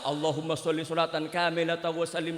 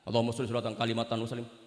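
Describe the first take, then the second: First: The phrase is recited at a careful, unhurried pace. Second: The phrase is rushed and the words get garbled.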